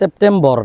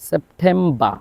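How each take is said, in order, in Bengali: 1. শব্দটি র ধ্বনি দিয়ে শেষ হয়। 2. শব্দটি র ধ্বনি ছাড়া শেষ হয়। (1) "সেপ্টেম্বর না" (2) "শব্দের শেষে যদি আর হয় আর এর উচ্চারণ হবে না"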